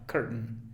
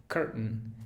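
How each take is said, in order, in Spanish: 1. La segunda vocal se reduce a un schwa. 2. La segunda vocal se reduce a un schwa.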